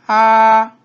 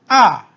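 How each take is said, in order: First: The pitch stays high and level. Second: The pitch falls sharply from high to low.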